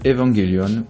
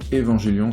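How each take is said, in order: First: The name is said without French pronunciation. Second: The name is said with French pronunciation.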